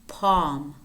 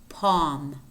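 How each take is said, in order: The two takes are said the same way.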